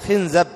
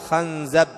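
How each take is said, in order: First: The vowels are i, then a: khinzab. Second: The vowels are a, then a: khanzab. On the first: "بكسر الخاء وفتح الزاي" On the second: "ويجوز فتح الخاء"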